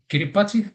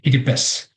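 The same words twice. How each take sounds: First: The final 'ti' is said with a t sound. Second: The final 'ti' is said with an s sound. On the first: This is how outsiders usually say it. "That's how you might pronounce it here" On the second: This is how local people say it. "the T I at the end sounds S, um, so we say Kiribati"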